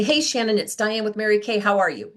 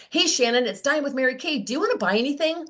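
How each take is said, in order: First: Said in the usual way. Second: Mock eager, rising sales voice; the blunt pitch she wanted to blurt; pushy sales pitch. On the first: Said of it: "this is what I used to say". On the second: Shown as a demonstration. Rep blurting a sales pitch to a customer, overeager. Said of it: "that was what wanted to come out of my mouth".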